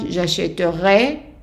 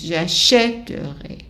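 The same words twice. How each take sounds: First: The stress falls at the end of the word. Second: The stress falls at the beginning of the word. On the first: The speaker calls it wrong. "not at the end" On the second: The speaker calls it right. "the emphasis is at the beginning of the word"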